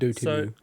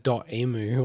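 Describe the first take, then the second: First: It is said with a French pronunciation. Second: It is said as English 'dot emu'. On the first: The speaker calls it right. "it's actually a French pronunciation" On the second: The speaker calls it wrong. "I always said it as dot emu or something like that"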